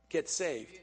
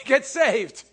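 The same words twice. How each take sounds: First: Said in the usual way. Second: Louder, higher correction. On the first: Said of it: "Well, actually". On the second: Shown as a demonstration. Preacher correcting himself, a louder Get saved. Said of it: "That's better".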